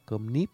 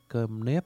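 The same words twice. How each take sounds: First: The second word has a close 'i' vowel. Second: The second word has an open 'e' vowel. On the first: "họ đổi thành là cơm nếp, N-I-P" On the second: "như là cơm nếp"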